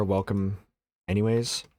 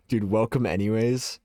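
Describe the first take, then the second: First: Dismissive, offhand welcome; mean-sounding. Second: Rising, incredulous repeat; questioning echo. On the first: Real, not acted. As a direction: toss off the welcome coldly. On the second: Retold or imitated. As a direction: echo the words back in disbelief. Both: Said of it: "Makes you sound mean".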